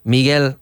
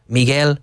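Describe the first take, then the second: No difference in how they are said.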